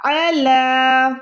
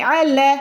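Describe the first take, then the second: First: عَلَى with the lam drawn out long and slow; lengthened lam. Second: عَلَى said short and clipped, lam not stretched; wrong reading. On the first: Tutor giving the correct recitation: long lam in عَلَى. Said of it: "لام کو آپ نے کھینچنا ہے". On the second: Tutor showing the mistake to avoid: short عَلَى. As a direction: rush عَلَى without lengthening the lam. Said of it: "ایسے نہیں پڑھنا". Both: Shown as a demonstration.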